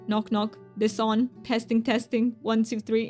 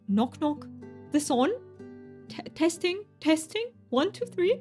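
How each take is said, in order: First: It is said in a robotic voice. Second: It is said in a fancy accent.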